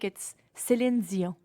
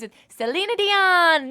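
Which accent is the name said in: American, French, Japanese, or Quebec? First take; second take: Quebec; Japanese. First: It is said in a Quebec French accent. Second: It is said in a Japanese accent.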